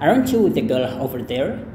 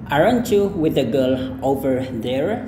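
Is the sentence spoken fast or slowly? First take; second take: fast; slowly. First: The sentence is spoken fast. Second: The sentence is spoken slowly. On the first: "kalau misalkan dia cepat" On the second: "kita pelan-pelan dulu"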